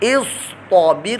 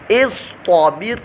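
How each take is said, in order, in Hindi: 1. t की आवाज़ भारी और मुँह भरकर बोली जाती है। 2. t की आवाज़ भारी और मुँह भरकर बोली जाती है।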